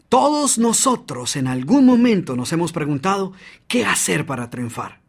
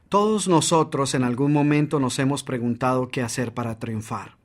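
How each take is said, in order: First: It is said with lively energy and variation. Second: It is said flatly, with little energy.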